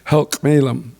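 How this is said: The name uses L sounds, articulated carefully. This is the upriver dialect form. "upriver has the L, and it's articulated a little bit more"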